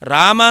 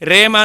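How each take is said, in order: First: The first vowel is an open 'ah' sound. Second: The first vowel is an 'ay' sound. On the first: The speaker calls it right. "ರಾಮ ಅಂತಲೇ ಉಚ್ಚಾರಣೆ ಮಾಡ್ತಕ್ಕಂಥದ್ದು" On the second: The speaker calls it wrong. "ರೇಮ ಅಂತ ಯಾರಾದರೂ ಹೇಳ್ತಾರೇನು?"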